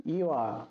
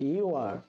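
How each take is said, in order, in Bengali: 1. শব্দ দুটো জুড়ে একটি ছোট দলে বলা হয়। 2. শব্দ দুটো জুড়ে একটি ছোট দলে বলা হয়।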